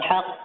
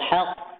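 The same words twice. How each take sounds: First: The final consonant is thin and light. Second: The final consonant is thick and heavy. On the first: The speaker calls it wrong. "bukan haqq" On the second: The speaker calls it right. "Tebal haqq"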